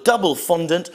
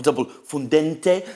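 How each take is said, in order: First: Said in the usual way. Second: Mock Italian accent. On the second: Shown as a demonstration. Reviewer naming the Italian snack, mock Italian accent. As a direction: double fondente with a hammed-up Italian accent, fun-DEN-teh. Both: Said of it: "with some kind of Italian accent".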